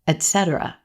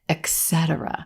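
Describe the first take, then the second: First: The first syllable has no k sound: 'et'. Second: The first syllable has a k sound: 'ex'. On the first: The speaker calls it right. "there's no x, x sound in this word" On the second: The speaker calls it wrong. "like there's a X in that very first syllable"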